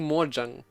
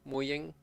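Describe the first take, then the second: First: The second syllable starts with a J sound. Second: The second syllable starts with a Y sound. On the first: "I am often saying it as J" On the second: "J often gets pronounced as Y"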